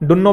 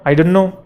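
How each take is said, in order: First: It is squeezed into two quick syllables. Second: All three words are said fully.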